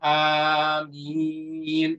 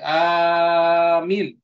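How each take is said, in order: First: Both vowels are long. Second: The first vowel is long, the second short. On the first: It means asking God to answer prayers. "dibaca panjang hamzahnya dan dibaca panjang mimnya" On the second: It means a plea for protection. "panjang hamzahnya, mimnya pendek"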